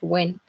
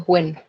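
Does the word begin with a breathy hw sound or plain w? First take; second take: plain w; breathy hw. First: The word begins with a plain voiced w sound. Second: The word begins with a breathy, voiceless hw sound. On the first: The speaker calls it wrong. "not when" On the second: The speaker calls it right. "when it comes to the labiovelar fricative, we say when"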